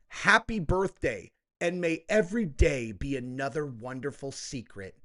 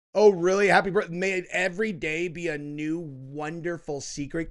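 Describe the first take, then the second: First: Said in the usual way. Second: Scoffing repeat of a quote, loud at first; mocking disbelief. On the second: Commentator ridiculing a birthday letter's wording, mocking disbelief. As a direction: start loud and incredulous, then mock the quoted line. Mocks the line just read.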